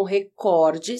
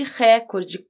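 First: Recorde stressed on the middle COR; stress on second syllable. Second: Recorde stressed on the opening RÉ, open é; stress on first syllable. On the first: Teacher citing the main entry, stress on second syllable of recorde. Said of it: "sem acento nenhum". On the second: Teacher citing the dictionary's alternative, stress on first syllable of recorde. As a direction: say recorde as RÉ-cor-de. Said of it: "como proparoxítona". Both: Shown as a demonstration.

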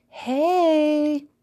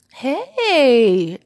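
First: High, loud squeaky sister voice; squeaky greeting. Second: High, very loud excited greeting; crying out. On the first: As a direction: squeak out a drawn-out hello. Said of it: "her sister's squeaky voice greeted her". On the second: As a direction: call it out long and loud. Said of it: "Fizzy cried out". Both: A narrator's reading.

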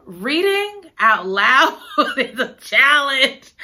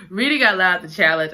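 First: Slow, laughing, exasperated. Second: Said in the usual way. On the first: Real, not acted. Host confessing reading aloud is hard, laughing. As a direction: laugh through it, drawn out. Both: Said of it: "I'm gonna tell you something".

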